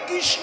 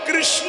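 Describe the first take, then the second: First: The word is pronounced slurred, like an old man. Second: The word is pronounced clearly and fully. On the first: An old person can no longer say it properly. "কৃষ্ণ হবে" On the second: This is how it should sound. "বুড়ো হলে কৃষ্ণ শব্দটা উচ্চারণ হবে না"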